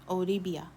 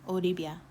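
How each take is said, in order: Both takes have the same delivery.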